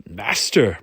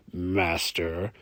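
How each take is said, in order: First: Loud, scoffing "Master"; spat out. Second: Drawn-out "Master" with a rising end; sarcastic. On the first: Brune balks at Hamish being called master, spat out. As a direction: spit the word in disbelief. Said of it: "Brune spat out the word". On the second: Brune teases Hamish on leaving, sarcastic "Master". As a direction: needle him with the title. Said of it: "he then added sarcastically". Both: A narrator's reading.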